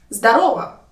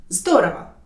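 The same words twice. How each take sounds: First: Louder «Здорово» with the RO stressed; stress on second syllable. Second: «Здорово» with the ZDO stressed; stress on first syllable. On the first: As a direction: say «Здорово» as zda-RO-va. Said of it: "put the stress on the second syllable". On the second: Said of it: "put the stress on the first syllable". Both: Shown as a demonstration.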